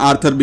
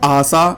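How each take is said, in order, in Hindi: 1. यह अंग्रेज़ी ध्वनियों के साथ बोला जाता है। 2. यह जापानी ध्वनियों के साथ बोला जाता है।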